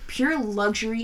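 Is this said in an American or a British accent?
American. It is said in the speaker's ordinary accent.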